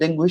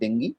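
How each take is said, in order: First: The word ends with an 'oo' vowel. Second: The word ends with an 'ee' vowel. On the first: This is the commonly known form. The speaker calls it wrong. "যদিও আপনারা হয়তো ডেঙ্গু হিসাবে জানেন" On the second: This is the actual pronunciation. The speaker calls it right. "উচ্চারণ কিন্তু আসলে ডেঙ্গি"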